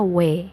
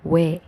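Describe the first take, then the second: No difference in how they are said.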